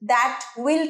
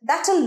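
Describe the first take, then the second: First: Both words are said fully and separately. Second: The two words are contracted into one.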